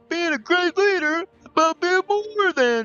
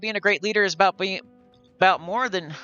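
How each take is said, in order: First: It is read in a put-on character voice. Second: It is read in a natural voice.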